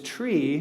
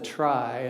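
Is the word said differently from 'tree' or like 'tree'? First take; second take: like tree; different. First: The word sounds the same as 'tree'. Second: The word sounds different from 'tree'. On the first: This is the original intended name. The speaker calls it right. "the correct, correct pronunciation is tree" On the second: This avoids confusion with another data structure. The speaker calls it wrong. "a lot of people call this a trie"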